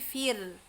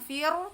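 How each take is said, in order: First: The r sound is held steady and low. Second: The r sound is raised and bounced. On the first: The speaker calls it right. "tapi fir, tahan ya" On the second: The speaker calls it wrong. "jangan dinaikkan fir, bukan fir"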